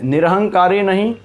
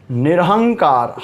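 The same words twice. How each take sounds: First: निरहंकारी said with the long ई, then rejected; wrong form named. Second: निरहंकार said slowly, no final ई, falling; correct form. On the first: Teacher marks निरहंकारी as the wrong form with a rising tune. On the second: Teacher gives निरहंकार as the correct form, slow and falling. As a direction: end निरहंकार on the consonant. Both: Shown as a demonstration.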